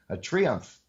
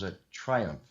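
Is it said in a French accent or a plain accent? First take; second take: French; plain. First: It is said in an imitated French accent. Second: It is said in the speaker's normal accent.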